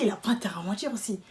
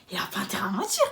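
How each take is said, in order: First: Said in the usual way. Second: Whispered under her breath; unvoiced whisper of a private thought. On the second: Thinking it to herself.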